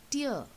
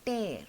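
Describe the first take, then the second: First: "tear" rhyming with ear; tear as weeping. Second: "tear" rhyming with air; tear as ripping. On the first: Teacher introducing drops from weeping eyes, "tear" rhyming with ear. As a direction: say "tear" as in a teardrop. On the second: Teacher introducing ripping a book page, "tear" rhyming with air. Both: Shown as a demonstration. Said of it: "pronunciation is again slightly different".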